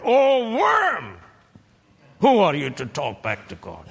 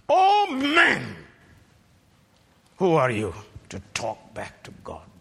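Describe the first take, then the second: First: High booming cry, then a fast louder rebuke; God's rebuke with worm instead of man; alternate rebuke. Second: Quoted rebuke. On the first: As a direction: cry out the scornful version. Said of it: "He could have said". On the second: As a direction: cry out the verse as God's rebuke. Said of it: "Verse twenty, the first part". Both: Shown as a demonstration.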